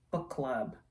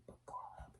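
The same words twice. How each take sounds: First: Said in the usual way. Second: Breathed as a hushed whisper. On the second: Shown as a demonstration. Naming the candle to viewers in a whisper. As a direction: whisper the name like a secret.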